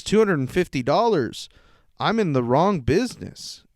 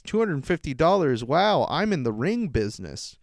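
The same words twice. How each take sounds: First: A commenter's scoff, wrong said with its normal vowel as in song; sneering commenter, wrong business with the word wrong said normally; mocking quote, wrong sounding like song; as meant, wrong business. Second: The commenter's scoff, with ring said like the word ring to rhyme with sing; mocking quote, ring clearly said as ring, not wrong; misspelling read out. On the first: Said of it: "But he spelled wrong incorrectly". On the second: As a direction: read the typo aloud, ring business where wrong was meant. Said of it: "really what he wrote in his comment was".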